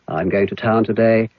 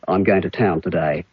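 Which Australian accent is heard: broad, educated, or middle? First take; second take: educated; broad. First: Clear vowels, close to a British accent. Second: Vowels sound lazy and dull, a broad accent. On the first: "in a British type of English or educated uh, Australian, you might say" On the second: "In broad Australian, it could be"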